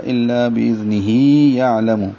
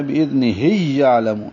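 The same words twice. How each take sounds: First: الا باذنہ یعلم with a long "hee" before a separate "ya"; joined with long hi. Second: باذنہ یعلم run together with a doubled "y", "hiyya'lamu"; mistaken merged ya. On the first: Teacher shows the joined reading, long hi. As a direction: link باذنہ to یعلم, lengthening the final "hi". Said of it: "ملانا ہو تو پھر ہی پڑھنا پڑے گا". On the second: Teacher shows what must not happen, merged ya. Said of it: "قاعدے کے حساب سے یوں بنتا ہے". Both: Shown as a demonstration.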